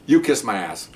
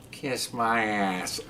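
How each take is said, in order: First: Said in the usual way. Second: Very slow, soft parrot voice; cussing parrot. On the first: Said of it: "He goes". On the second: Retold or imitated. Parrot told to go to sleep, slow bird voice. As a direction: draw it out like a talking bird. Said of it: "the bird looks at him".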